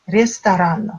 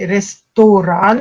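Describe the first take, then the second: First: The unstressed vowel is pronounced as a reduced A. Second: The unstressed vowel is pronounced as a full O. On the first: This is the standard literary way of speaking. "la norme littéraire nous impose la prononciation A" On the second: This is a regional way of speaking. "ça existe comme prononciation dans certaines régions en Russie. O se prononce bien comme O"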